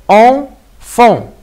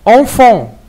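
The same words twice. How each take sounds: First: "Enfant" as "en... fant", higher pitched; split into syllables. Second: Said in the usual way. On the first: Shown as a demonstration. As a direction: break "Enfant" in two with a clear pause after "en". (« Enfant » découpé : « en… fant ») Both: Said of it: "si on va le diviser en syllabes".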